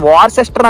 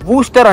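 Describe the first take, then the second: First: It is said with three syllables, following spelling. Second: It is said with two syllables, middle dropped. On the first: The speaker calls it wrong. "దాన్ని వార్సెస్టర్ అని చదవరు అనమాట" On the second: The speaker calls it right. "వూస్టర్ అంటారు"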